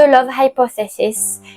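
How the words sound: It is pronounced with an English accent. "c'est pour ça que je le prononce en anglais"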